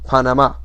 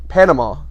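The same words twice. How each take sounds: First: It is said with a Spanish pronunciation. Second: It is said with an American pronunciation. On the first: "In Spanish, it's pronounced" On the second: "That's the American pronunciation"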